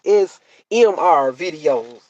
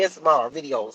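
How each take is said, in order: First: "S M R videos" slowly, each letter apart; careful correction. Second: "S M R videos" with the letters blurred into one word; run-together letters. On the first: Retold or imitated. Daughter correcting mom, slow separate letters in "S M R videos". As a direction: spell out "S M R" clearly in "S M R videos". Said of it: "You need to say that right". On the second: Shown as a demonstration. Mom's habitual mistake, "S M R videos" with letters run together. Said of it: "you be saying it wrong".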